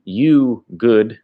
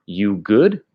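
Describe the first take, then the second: First: YOU GOOD as a plain statement; statement version. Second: YOU GOOD rising at the end; question version. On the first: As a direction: say YOU GOOD without a questioning rise. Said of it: "The direct translation is". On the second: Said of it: "which means question". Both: Shown as a demonstration.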